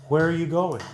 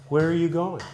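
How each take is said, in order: The two takes are said the same way.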